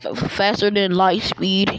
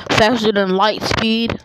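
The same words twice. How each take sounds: First: Said in the usual way. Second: Faster punched louder, insisting; emphatic repeat. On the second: Shown as a demonstration. Boasting to viewers, hitting Faster hard and loud. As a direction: lean hard on Faster, like daring anyone to doubt it. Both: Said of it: "Yes, I said it".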